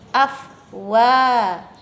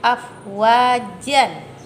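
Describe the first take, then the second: First: The word ends with a long a vowel. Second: The word ends with a short vowel plus n.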